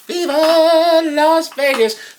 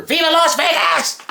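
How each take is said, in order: First: High, slow sung Vegas flourish; drawn-out singing. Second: High-pitched Vegas cheer; high exclamation. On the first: Host crooning the show's location, long high sung line. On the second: Host hyping the Las Vegas show, high quick cheer. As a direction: call out the city in a high, excited voice. Host shouts out the show's location. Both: Pretend.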